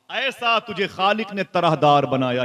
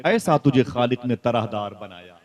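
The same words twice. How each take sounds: First: Higher, slow chanted line; chanted verse. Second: Said in the usual way. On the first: Shown as a demonstration. (chanted, ऊँचा, धीमा, तरन्नुम से पढ़ना) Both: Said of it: "कहते हैं".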